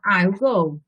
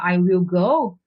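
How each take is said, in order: First: The words I will are contracted together. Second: The words I will are said in full.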